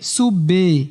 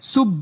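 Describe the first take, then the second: First: The b is followed by a full added vowel. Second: The b is closed with no echoing release. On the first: "কলকলা করতে গিয়ে সুবে এরকম করে ফেলায়, এটা আবার ভুল।" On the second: "আপনি যদি বাতে কলকলা না করেন"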